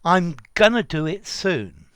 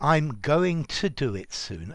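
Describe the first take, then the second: First: Going to is reduced to gonna. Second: Going to is pronounced fully as two words.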